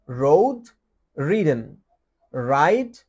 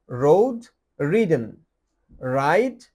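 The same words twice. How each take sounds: The two takes are said the same way.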